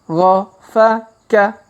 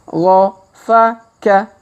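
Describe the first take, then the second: The two takes are said the same way.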